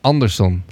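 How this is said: The name is said with Dutch pronunciation.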